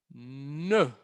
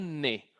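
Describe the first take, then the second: First: The vowel is a rounded French e. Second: The vowel is a plain unrounded Spanish e. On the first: The speaker calls it right. "así la pronunciación" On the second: The speaker calls it wrong.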